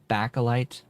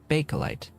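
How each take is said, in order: First: The first syllable has a short "a" as in back. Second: The first syllable has a long "ay" as in bay. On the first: The speaker calls it wrong. "I'd just been calling it back, Bakelite" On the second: The speaker calls it right. "it's Bay and I, and not Ba"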